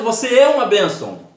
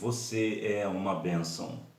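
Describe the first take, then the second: First: It is said in a harsh, aggressive voice. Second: It is said in a gentle, calm voice. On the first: It sounds like an attack despite the kind words. The speaker calls it wrong. "Parece que é agressivo" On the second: It is a kind blessing. The speaker calls it right. "Olha a tonalidade de voz. Minha voz está aqui"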